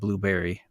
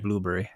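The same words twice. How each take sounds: First: It is said in an American accent. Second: It is said in a British accent. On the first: "instead of blueberry" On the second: "they always say like you know blueberry"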